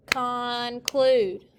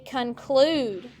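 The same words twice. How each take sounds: First: "conclude" with both syllables held and fully sounded. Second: Said in the usual way. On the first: Shown as a demonstration. Teacher has the class clap it, "conclude" drawn out by syllable. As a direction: stretch "conclude" into two even beats. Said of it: "Clap it". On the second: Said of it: "everyone say conclude".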